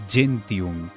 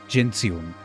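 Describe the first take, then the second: No difference in how they are said.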